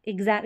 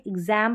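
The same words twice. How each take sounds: First: एग्जाम with an open Hindi "aa"; wrong "aa" vowel. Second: एग्जाम with the vowel of English "cat"; correct "ae" vowel. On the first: Teacher warning against a misreading, "aa" in एग्जाम. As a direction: say एग्जाम as "eg-zaam". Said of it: "इसको एग्जाम ना पढ़े". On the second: Teacher giving the correct pronunciation, "ae" in एग्जाम. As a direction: say एग्जाम as "ig-zaem". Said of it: "इसका correct pronunciation है". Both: Shown as a demonstration.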